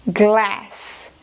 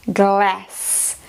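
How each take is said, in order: The two takes are said the same way.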